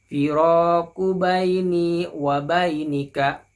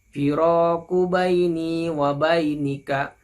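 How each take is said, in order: No difference in how they are said.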